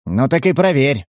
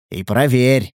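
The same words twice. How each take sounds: First: Said in the usual way. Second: Cool, understated repeat; unperturbed. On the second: A narrator's reading. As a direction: repeat it without rising to the challenge. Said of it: "невозмутимо повторил тот".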